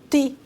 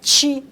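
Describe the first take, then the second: First: The syllable starts with a plain 't' sound. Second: The syllable starts with a 'ch' sound. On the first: "e sim ti" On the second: "Que não é ti"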